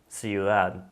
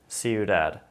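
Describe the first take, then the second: First: The D sounds are soft, Spanish-style. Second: The D sounds are hard, English-style. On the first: The speaker calls it right. "Now I'm gonna say it how it should be said" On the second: The speaker calls it wrong. "first I'm gonna say it with an American accent, with or with an American D sound"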